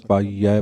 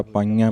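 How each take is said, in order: First: ਪਾਈਐ ending in a plain, non-nasal vowel; correct form. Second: ਪਾਈਆਂ ending in a nasal vowel; wrong form. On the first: Teacher contrasting the right and wrong readings of ਪਾਈਐ. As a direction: say ਪਾਈਐ without any nasal sound. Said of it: "ਪਾਠ ਹੋਏਗਾ". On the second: Teacher demonstrating the wrong nasal reading of ਪਾਈਐ. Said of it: "ਪਾਠ ਨਹੀਂ ਹੋਏਗਾ". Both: Shown as a demonstration.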